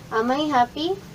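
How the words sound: The voice rises at the end. The speaker calls it right. "pataas yung boses natin"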